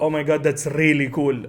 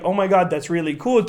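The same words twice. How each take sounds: First: It is said in a Saudi Arabic English accent. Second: It is said in an American accent.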